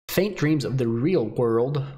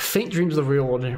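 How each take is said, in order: First: It is said slowly with careful enunciation. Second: It is said quickly without careful enunciation. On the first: The speaker calls it right. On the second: The speaker calls it wrong.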